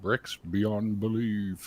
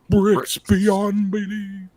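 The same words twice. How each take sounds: First: It is said plainly, without extra energy. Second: It is said with lively, showy energy. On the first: The speaker calls it wrong. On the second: The speaker calls it right.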